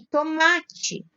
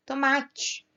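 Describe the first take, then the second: First: Tomate drawn out slowly, MA standing out; stress on MA. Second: Said in the usual way. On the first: Shown as a demonstration. Teacher showing which syllable stands out, tomate with long stressed "ma". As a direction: stretch tomate and lean on the "ma". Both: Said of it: "O ma é a sílaba que se destaca".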